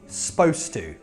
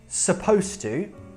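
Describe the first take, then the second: First: The first vowel of supposed is dropped entirely. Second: The first vowel of supposed is clearly said. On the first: "in casual conversation, people talk quickly... Like that you isn't there" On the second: "that's the normal way"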